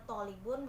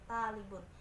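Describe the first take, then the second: First: The first consonant is emphatic with a darker vowel. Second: The first consonant is a plain t sound. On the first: The speaker calls it right. "kata tolibun" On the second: The speaker calls it wrong. "bisa disebut dengan talibun"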